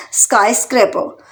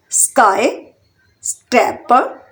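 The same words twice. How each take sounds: First: Said in the usual way. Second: sky, then scraper in slow separate beats; split into syllables. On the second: Shown as a demonstration. Teacher showing learners three syllables, syllable by syllable. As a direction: pause between sky, स्क्रै and पर. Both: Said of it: "इसमें भी three syllable".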